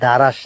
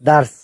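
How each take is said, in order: First: An extra vowel separates the r and s. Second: No vowel separates the r and s. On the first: The speaker calls it wrong. "উচ্চারণটা কিন্তু দারাস না" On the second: The speaker calls it right.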